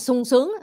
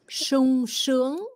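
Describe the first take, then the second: First: It is said with a Southern Vietnamese s sound. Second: It is said with a standard hushing s sound. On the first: The speaker calls it wrong. "người Nam cứ sung sướng" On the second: The speaker calls it right.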